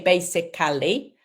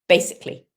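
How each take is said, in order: First: It is said with four syllables. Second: It is said with three syllables. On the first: The speaker calls it wrong. "We don't say basically" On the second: The speaker calls it right. "three syllables. ... we just say basically"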